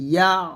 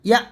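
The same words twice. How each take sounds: First: The vowel is pressed deep from the throat. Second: The vowel is plain, without throat constriction. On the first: The speaker calls it right. "বলতে হবে ইয়া এরকম" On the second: The speaker calls it wrong. "এরকম ইয়া এরকম বলা যাবে না"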